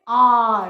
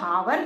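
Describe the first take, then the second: First: The word starts with a vowel, no h. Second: The word starts with an audible h sound. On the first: The speaker calls it right. "हम इसको क्या बोलते हैं" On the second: The speaker calls it wrong. "हम इसको हावर नहीं बोलते"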